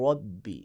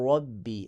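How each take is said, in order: The two takes are said the same way.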